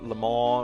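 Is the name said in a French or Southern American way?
French. The name is said with a French pronunciation. "however it's pronounced in French"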